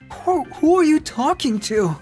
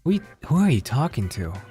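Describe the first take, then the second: First: It is said in an imitated Deku voice. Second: It is said in the speaker's normal voice.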